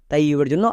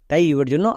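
Both takes have the same delivery.

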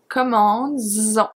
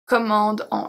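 First: A z sound links the two words together. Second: The words are said with no linking z sound. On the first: The speaker calls it right. "we keep the s technically, to have a good pronunciation" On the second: The speaker calls it wrong. "if we don't add the s. ... It's not possible, it's not a good pronunciation in French"

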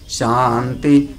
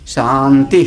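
First: The final syllable is low in pitch. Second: The final syllable is high in pitch. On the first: "बीच वाले दोनों ता अनुदात्त हैं" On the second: "अंतिम वाला ता उदात्त है"

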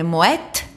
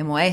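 First: The final t is clearly pronounced. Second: The final t is left silent. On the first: The speaker calls it right. "Είναι το ΤΑΦ, ακούγεται" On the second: The speaker calls it wrong. "δεν είναι σιωπηλό"

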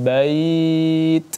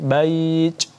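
First: The final t has only a light puff of air. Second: The final t has a strong, exaggerated puff of air. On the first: The speaker calls it right. "sedikit saja" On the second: The speaker calls it wrong. "tidak sampai bait"

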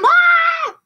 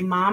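First: It is called out in a whiny, tattling voice. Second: It is said in a calm, even voice. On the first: The child is tattling to get someone in trouble. The speaker calls it wrong. "those aren't the best choices" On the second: The child is calmly reporting a problem. The speaker calls it right. "we're going to say it in not that tattletale-y voice"

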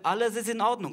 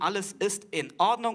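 First: The words run together without glottal stops. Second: Glottal stops separate each vowel-initial word. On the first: "Es würde alles gebunden werden" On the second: "werden die Wörter schön voneinander getrennt"

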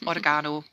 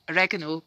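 First: It is pronounced with a British accent. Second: It is pronounced with an American accent.

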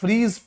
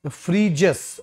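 First: The name is said as one syllable, 'freez'. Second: The name is said as two syllables, 'free-jis'. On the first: The speaker calls it wrong. "हम लोग आम आदमी पढ़ेंगे the फ्रीज" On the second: The speaker calls it right. "Pronounce ऐसे होगा फ्रीजिस"

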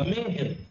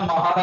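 First: The first vowel is an 'e' sound. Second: The first vowel is an 'a' sound. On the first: The speaker calls it right. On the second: The speaker calls it wrong.

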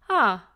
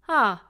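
No difference in how they are said.

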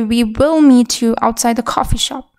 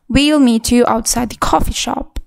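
First: Both words 'we will' are said in full. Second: 'We will' is contracted to one syllable, 'we'll'. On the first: The speaker calls it wrong. "When you speak fast, you don't say" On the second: The speaker calls it right. "It automatically becomes"

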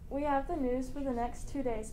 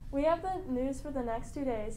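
First: It is said with ordinary, low energy. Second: It is said with more energy and oomph.

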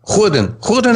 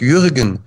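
First: The name begins with a throaty 'ch' sound. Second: The name begins with a soft 'y' sound. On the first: "das J wird ja hier wie ein Ch ausgesprochen" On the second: "nein, sag ich Jürgen"

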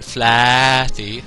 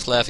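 First: The name is said in a careful, exact pronunciation. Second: The name is said in a casual, loose pronunciation. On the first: The speaker calls it right. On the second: The speaker calls it wrong.

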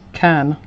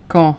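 First: The vowel is a flat, open 'a' sound. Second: The vowel is a rounded, nasal 'o' sound. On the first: The speaker calls it wrong. "us Brits would say ... we'd say can, which is not correct" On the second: The speaker calls it right. "instead of con"

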